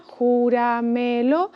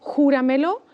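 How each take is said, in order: First: "júramelo" as jú, ra, me, lo; slow "júramelo", syllable by syllable; split into syllables. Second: Said in the usual way. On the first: Shown as a demonstration. Teacher separating the word to count, slow syllables. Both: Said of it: "la separamos en sílabas".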